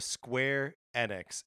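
A short pause separates the two words. The speaker calls it wrong. "It there's like a pause between it"

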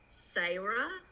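Sarah is said with a Southern Georgia pronunciation. "the second you pronounce Sarah"

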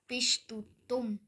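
It is said in a Swiss German accent. "auf Schweizerdeutsch machen ... das heißt einfach mal"

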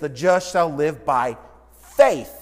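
The word faith is stressed. "the emphasis is on the word faith"

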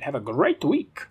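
It is said in a put-on Dracula voice.

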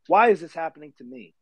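It sounds like a whining, rhetorical complaint.

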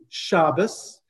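It ends in an s sound, Ashkenazi style.

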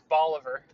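The name is said the Tennessee way. It is the local American pronunciation. "it's always been Bolivar. There's a Bolivar, Tennessee, as everybody says it"

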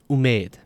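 It is said with the Afghan vowel. "In Afghanistan and Tajikistan, it's pronounced umid"

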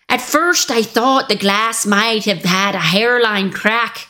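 It is said in an imitated Northern English accent.

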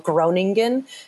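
The name is said the American way.

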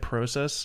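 It is said with a Canadian vowel. "They say process"

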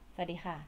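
The greeting is said in an angry tone. "ดูแบบโกรธๆไหมคะ"

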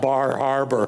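It is said in general American, with r's.

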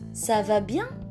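The pitch rises at the end. It asks whether someone is well. "Atau bisa juga ça va bien?"

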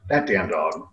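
The tone is warm and affectionate. The dog is loved and cute. "she's so cute"

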